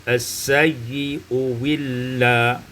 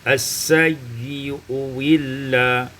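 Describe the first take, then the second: No difference in how they are said.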